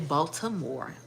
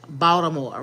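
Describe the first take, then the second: First: It is said with a standard, careful pronunciation. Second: It is said with a local Baltimore pronunciation. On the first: The speaker calls it wrong. "you can't say Baltimore" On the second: The speaker calls it right. "you got to say it that way"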